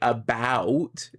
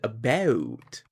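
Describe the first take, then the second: First: It is said in an exaggerated American accent. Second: It is said in a Canadian accent. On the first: "a lot more Americans say about, if I'm going to exaggerate" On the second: "Whereas a Canadian, I say out and about"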